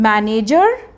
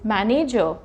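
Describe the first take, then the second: First: The final r sound is clearly pronounced. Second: The word ends without a final r sound. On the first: The speaker calls it wrong. "No" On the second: The speaker calls it right. "It is मैनेजर"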